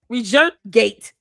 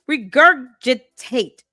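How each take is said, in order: First: The word is said with a syllable dropped. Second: The word is said with all four syllables. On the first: The speaker calls it wrong. "Why do you keep mispronouncing this word?" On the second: The speaker calls it right. "if you cannot pronounce it correctly"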